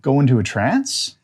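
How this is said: The pitch rises at the end like a question. It sounds like a question. The speaker calls it wrong. "you don't want it to be a question"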